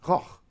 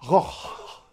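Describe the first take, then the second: First: It ends in the raspy sound alone. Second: An extra h sound is added at the end. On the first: The speaker calls it right. "It's just roch" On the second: The speaker calls it wrong. "You don't say roch"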